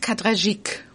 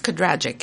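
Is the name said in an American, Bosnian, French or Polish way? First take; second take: French; American. First: The name is said the French way. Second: The name is said the American way.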